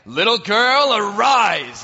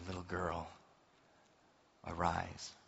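First: It is said like a grand magic incantation. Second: It is said softly and tenderly.

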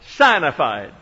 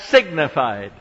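First: The first syllable sounds like 'sign'. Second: The first syllable sounds like 'sig'. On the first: The speaker calls it right. "we pronounced that word as it is written. It is written signified" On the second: The speaker calls it wrong. "Now you pronounce that signified"

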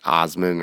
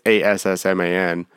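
First: The first syllable sounds like 'oss'. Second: The first syllable sounds like 'ass'. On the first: "It's probably like Osman" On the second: "but it's Assman"

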